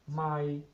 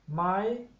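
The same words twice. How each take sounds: First: The pitch stays level throughout. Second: The pitch is held high throughout. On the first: It means a mile. "if we apply the flat tone in the word my" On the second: It is a yes-no question particle. "the high tone my"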